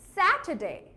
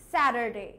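First: It is said in a British accent. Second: It is said in an American accent.

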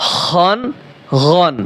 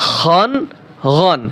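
Both takes have the same delivery.

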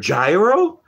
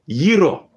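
First: It starts like the English word gyroscope. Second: It starts with a y sound, Greek style. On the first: "that's how you say gyro in English. It's like a gyroscope" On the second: "It's Yiro"

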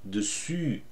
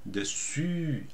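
No difference in how they are said.

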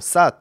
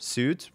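First: The vowel is not the vowel of soon. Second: The vowel is long, like in soon. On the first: The speaker calls it right. "But no, Soot" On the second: The speaker calls it wrong. "like soon. So logically, you know, suit or something like that"

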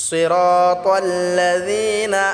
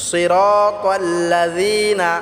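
No difference in how they are said.

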